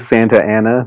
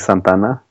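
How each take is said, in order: First: The two words stay separate, four syllables. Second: The two words merge into three syllables. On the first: This is the common local way of saying it. "If you say Santa Ana, maybe it's more normal" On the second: This is how it is said in Spanish. "but in Spanish it would just be Santana"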